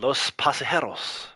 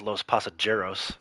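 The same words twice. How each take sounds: First: It is said with a Spanish accent. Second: It is said with an American gringo accent.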